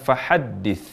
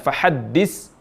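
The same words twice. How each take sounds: First: The last consonant is a 'th' sound. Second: The last consonant is an 's' sound. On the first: The speaker calls it right. "waktu mengucapkan fahaddis" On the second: The speaker calls it wrong. "berubah jadi huruf sin"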